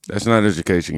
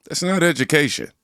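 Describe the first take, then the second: First: Said in the usual way. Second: "not" pushed up high and hard, then falls; stress on not. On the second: Acted. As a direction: hit "not" high with a falling finish. Commentator hammers his point.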